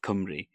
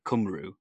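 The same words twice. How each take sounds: First: The vowels are read with Welsh letter sounds. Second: The vowels are read with English letter sounds. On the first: The speaker knows Welsh. The speaker calls it right. "instead of Cymru" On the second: The speaker does not know Welsh. The speaker calls it wrong. "a lot of people that don't know the language would just say sort of Cymru"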